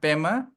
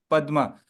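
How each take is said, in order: First: It is said the Tibetan way, without the d. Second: It is said the Sanskrit way, with the d. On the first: The speaker calls it wrong. "Pema is a Tibetan pronunciation" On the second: The speaker calls it right. "But actual pronunciation is Padma"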